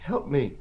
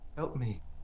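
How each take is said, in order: First: It is said very loudly. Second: It is said somewhat louder.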